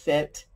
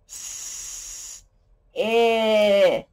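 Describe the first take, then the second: First: The word is said smoothly as one unit. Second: The word is split into separate sounds. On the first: "it says sit" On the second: "he likes to break it apart"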